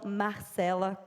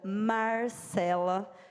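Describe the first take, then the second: First: The R is said in the Rio accent. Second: The R is said in the caipira accent. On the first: "E não Marcela, como no Rio de Janeiro" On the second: "sotaque caipira. Ou seja, o meu sotaque, os R's, nós pronunciamos R"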